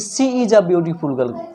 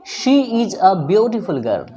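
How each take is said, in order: First: The first word begins with an s sound. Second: The first word begins with an sh sound. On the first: The speaker calls it wrong. "ना कि सी is a beautiful girl ... बिल्कुल गलत होगा" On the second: The speaker calls it right. "आपको तालब्य श उच्चारण करना पड़ेगा"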